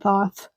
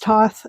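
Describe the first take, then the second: First: The word begins with a TH sound. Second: The word begins with a plain T sound. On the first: "It's spelled Thoth" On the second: "some people pronounce it Toth"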